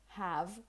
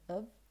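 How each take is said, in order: First: The word is said fully with its first sound. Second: The word is cut down to a weak vowel. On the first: "the auxiliary verb have" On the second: "or simply of"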